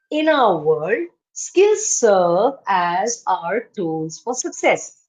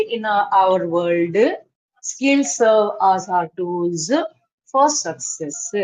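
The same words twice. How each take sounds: First: Each word separate, no extra vowel after "world", "skills" or "success"; cleanly cut words. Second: Slow, with an extra "uh" after "world", "skills" and "success"; imitating mother-tongue stress. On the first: Shown as a demonstration. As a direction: slowly model it, cutting "world" and "success" off cleanly. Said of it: "see how I'm cutting it". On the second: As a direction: mimic a learner leaning on each last sound of "world" and "skills". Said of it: "you are speaking like you speak your mother tongue".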